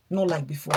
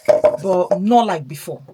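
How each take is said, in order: First: Said in the usual way. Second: "But not like before" said slowly and much louder, weight on "not"; emphatic. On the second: Real, not acted. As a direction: lean hard and slow on "not like before".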